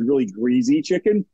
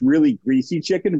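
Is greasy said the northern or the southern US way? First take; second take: southern; northern. First: Greasy is pronounced the southern US way. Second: Greasy is pronounced the northern US way. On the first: "South of that line with greasy, southern U.S" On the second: "North of that line was the northern U.S"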